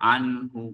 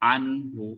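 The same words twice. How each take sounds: Both takes have the same delivery.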